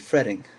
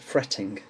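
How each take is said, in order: First: The middle T sounds like a soft D. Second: The middle T is a clear T sound. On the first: "with an American accent, it would be fretting. Uh, you, the T's would become like a soft D sound" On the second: "with my accent, uh, the T's are pronounced fretting"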